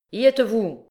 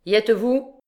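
First: Sharp call. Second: Lauter, höher gerufen mit steigender Frage; repeated call. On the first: Clopin ready to signal the hanging. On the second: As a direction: die Henker nochmals lauter fragen. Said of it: "répéta-t-il". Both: A narrator's reading.

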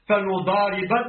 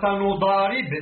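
First: فنضارب ending in a short a; accusative ending. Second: فنضارب closed on a vowelless b; jussive ending. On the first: Reader gives the alternative فنضارب, ending in -ba. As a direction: say فنضارب with fatha on the final b. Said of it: "بالنصب". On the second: Reader cites فنضارب as jussive, with a vowelless ending. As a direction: end فنضارب on a bare b, no case vowel. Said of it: "بالجزم". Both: Shown as a demonstration.

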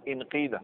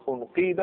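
First: انقيد opening on "i": inqiida; kasra on hamza. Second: انقيد opening on "u": unqiida; damma on hamza. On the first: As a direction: start انقيد with a short "i". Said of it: "اذا نكسر همزه الوصل". (انقيد بكسر الهمزة) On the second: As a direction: start انقيد with a short "u". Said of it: "دائما الهمزه الوسط تتبع حركه". (انقيد بضم الهمزة) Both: Shown as a demonstration.

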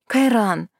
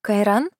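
First: Falling scolding call of his name; indignant. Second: Rising fake-surprised question; feigned surprise. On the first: Acted. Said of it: "Хоть и выдала возмущение". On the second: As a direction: act surprised to see him. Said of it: "изобразила удивление на лице".

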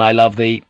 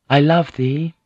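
First: Acted man's voice, pitch kept down. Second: Higher-pitched female declaration; acted lady's voice, pitched up; woman's voice. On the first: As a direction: answer as the man, in a narrator's natural register. Man answers her in kind. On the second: A narrator's reading. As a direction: voice her saying it with a lifted pitch. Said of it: "she said in Latin".

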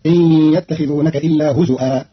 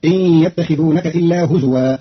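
First: هزوا with hamza, huzu'an; Qalun reading. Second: هزوا with waw, huzuwan; slow huzuwan; standard reading. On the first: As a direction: glottal stop in هزوا, huzu'an. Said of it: "فتصير". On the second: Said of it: "بهمز الواو". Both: Shown as a demonstration.

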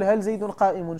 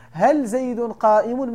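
First: Said in the usual way. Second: هل زيد قائم said slowly and a bit louder, هل stressed; slow emphatic example. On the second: Shown as a demonstration. Teacher demonstrating the question to students, slow and emphatic. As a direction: lay out each word deliberately. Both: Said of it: "ملي كتقول".

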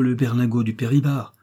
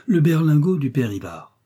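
First: Said in the usual way. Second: Higher, mock-indignant quotation; scornful echo. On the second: A narrator's reading. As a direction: echo it as an outrageous proposal. Outraged echo of the servant's suggestion.

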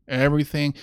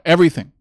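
First: Said in the usual way. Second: Everything said much louder, punched and falling; emphatic everything. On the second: Real, not acted. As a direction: hammer the word Everything hard. Repeats word, first louder.

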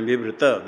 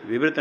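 First: विवृत as three syllables, vi-vri-ta; final vowel sounded. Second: विवृत stopped on the t, vivrit; final vowel dropped. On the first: Teacher corrects students, विवृत with final अ sounded. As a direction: voice a short अ after the त in विवृत. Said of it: "विवृत नहीं, विवृत". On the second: Teacher shows the wrong way, विवृत without final अ. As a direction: end विवृत on the consonant, no vowel after. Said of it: "विवृत नहीं". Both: Shown as a demonstration.

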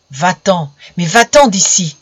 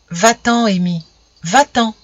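First: A sharp, cross voice telling him to leave; angry voice. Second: Gentle, motherly urging; motherly and caressing. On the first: Tree spirit angrily driving the boy away, sharp cross voice. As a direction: scold him away, louder on the second. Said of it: "une voix grêle et fâchée". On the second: Tree spirit gently urging Amy to leave, motherly caressing tone. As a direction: coax him away tenderly. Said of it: "d'un ton maternel et caressant". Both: A narrator's reading.

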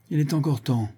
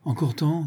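First: Higher-pitched, tentative objection; objecting. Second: Higher, questioning echo; indignant exclamation. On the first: Accomplice objecting to the execution, mild objection. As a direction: object with a falling end. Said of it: "objecta Conrad". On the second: Chief echoing his accomplice's objection, indignant disbelief. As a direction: throw the words back as an incredulous question. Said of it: "s'écria". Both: A narrator's reading.

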